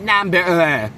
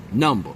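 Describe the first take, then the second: First: "Number" pitched up in an exaggerated Caucasian accent; mock Caucasian accent. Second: "number" said low, with a relaxed unstressed ending; number with flavor. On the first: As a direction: stretch "Number" with a quivering Caucasian-accent ending. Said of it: "her Caucasian accent where she was like". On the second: Shown as a demonstration. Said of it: "how we said, you know, with flavor".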